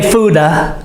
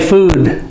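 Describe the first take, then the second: First: An extra vowel sound follows the final D. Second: The word ends cleanly on the D sound. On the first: The speaker calls it wrong. "But we don't say fooda" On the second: The speaker calls it right. "we say food"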